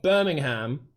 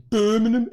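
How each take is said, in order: First: "Birmingham" with a full -ham at the end; expected spelled-out pronunciation. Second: Higher, louder mock Brummie "Birmingham"; Birmingham accent. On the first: Contrasting with locals, "Birmingham" as you would expect it. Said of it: "instead of Birmingham". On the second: Showing the way they say it, Birmingham accent. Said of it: "the way they say Birmingham". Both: Shown as a demonstration.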